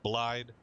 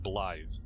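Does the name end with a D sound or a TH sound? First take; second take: D sound; TH sound. First: The name ends with a D sound. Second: The name ends with a TH sound. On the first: "I pronounce it like it's spelled" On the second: "Everybody else says Blythe. It sure sounds like it's a T H instead of a D"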